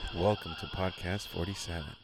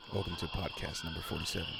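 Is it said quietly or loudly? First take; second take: loudly; quietly. First: It is said loudly, in a full voice. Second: It is said quietly, almost whispered.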